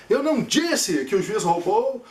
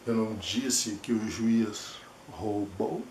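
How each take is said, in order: First: Rising, insistent take stressing não; firm rising delivery with stress on não; affirming tone. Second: Soft, slow, held-back denial; slow hushed take of the line; denying, protective. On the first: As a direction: make it sound like he did steal. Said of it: "O tom de voz junto com as minhas mãos afirma que o juiz roubou". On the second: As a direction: say it quietly, as if shielding yourself. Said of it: "Olha os olhos, olha o movimento da cabeça". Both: Shown as a demonstration.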